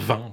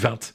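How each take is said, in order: First: The word ends without a T sound. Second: The word ends with an audible T sound. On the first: "Je peux pas dire 20" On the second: "on se dit 20. Et ça, c'est typique du Nord"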